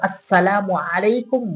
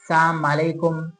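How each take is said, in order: First: Every word is pronounced fully and clearly. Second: The words are clipped and slurred together. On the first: The speaker calls it right. "पूरा अल्फाज क्लियर करके बोले" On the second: The speaker calls it wrong. "इस तरीके से अल्फाज को टेढ़ा-मेढ़ा करके ना बोले"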